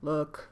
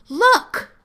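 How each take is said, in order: First: It is said in a low, flat voice. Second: It is said in a high, excited voice.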